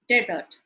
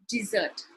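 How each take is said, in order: First: The stress is on the first syllable. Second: The stress is on the second syllable. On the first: A dry, sandy region. "it is right before sound" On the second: The sweet course after a meal. "the stress is indicated with the hyphen after the I sound"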